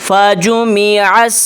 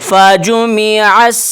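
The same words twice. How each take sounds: No difference in how they are said.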